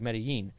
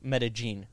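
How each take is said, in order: First: The double L is said like a Y. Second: The double L is said like a hard J. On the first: This is the standard Spanish pronunciation. "If you pronounce it like Spanish, you know, with the double L's" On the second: This is how locals say it colloquially. "colloquially, in there, they pronounce double L's like a hard J"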